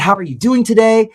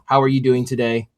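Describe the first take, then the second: First: It sounds excited and lively. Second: It sounds bored and nonchalant.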